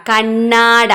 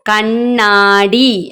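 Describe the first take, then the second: First: കണ്ണാട said ending on a short open a, no final i; wrong reading shown. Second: കണ്ണാടി stretched very slowly, each syllable clear, ending on a long i; correct reading, slowly. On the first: Teacher shows children the wrong reading കണ്ണാട, plain and clear. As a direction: read കണ്ണാട as kannaada, stopping on the a. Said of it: "പക്ഷെ കണ്ണാട എന്നല്ല". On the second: Teacher models the right reading കണ്ണാടി for children, very slow. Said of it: "കണ്ണാടി എന്നാണ് വായിക്കുക". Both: Shown as a demonstration.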